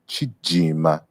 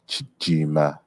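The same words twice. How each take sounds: First: The middle consonant is a J sound. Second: The same.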